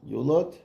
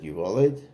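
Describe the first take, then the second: First: The word has two syllables, yu-lad. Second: The word has three syllables, yi-vo-led. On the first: This is how the text is written. "is what it says" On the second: This is how a revered teacher read it. "The Rebbe always said it yivoled"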